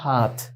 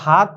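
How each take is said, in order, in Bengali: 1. শেষের t-এর সঙ্গে একটু শ্বাস বের হয়। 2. শেষের t অল্পপ্রাণ, শ্বাস ছাড়া। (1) "উর্দুতে উচ্চারণটা হাত" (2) "এখানে কিন্তু হাত বলা যাবে না"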